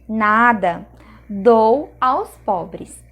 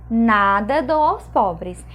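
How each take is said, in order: First: There is a pause after 'nada'. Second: It is said as one phrase without a pause.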